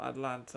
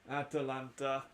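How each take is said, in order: First: It is said like the city Atlanta. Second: It is said with an extra vowel, Atalanta. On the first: The speaker calls it wrong. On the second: The speaker calls it right.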